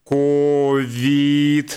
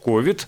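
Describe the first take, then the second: First: Neither syllable is stressed, flat and robotic. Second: The stress is on the first syllable. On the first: "ну как робот сейчас постарался, да, вообще без ударения" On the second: "ставят ударение на первый слог"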